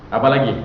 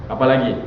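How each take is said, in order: Both takes have the same delivery.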